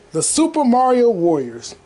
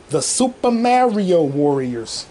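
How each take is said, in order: First: Title announcement. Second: Slow, drawn-out episode title; grand title announcement. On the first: Host naming this episode, title announcement. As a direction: announce the title at normal speed. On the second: Host naming this episode, slow grand announcement. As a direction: stretch the title out slowly and grandly. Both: Real, not acted.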